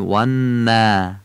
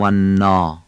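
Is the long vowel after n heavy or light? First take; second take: light; heavy. First: The long a after n sounds thin and light. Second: The long a after n sounds thick and full. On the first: The speaker calls it right. "الف بعد از نون ترقیق میشه ... میگیم و نا" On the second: The speaker calls it wrong. "نمیگیم و نا"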